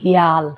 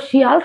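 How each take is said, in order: First: হিয়াল with the sh softened to h; Sylheti pronunciation. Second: শিয়াল said with a clear sh sound at the start, as in standard Bengali; শিয়াল with a crisp standard sh; standard Bengali pronunciation. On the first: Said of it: "আমরা সিলেটি বাংলায় ইটারে কই". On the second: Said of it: "শুদ্ধ বাংলায় তো শিয়াল কই". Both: Shown as a demonstration.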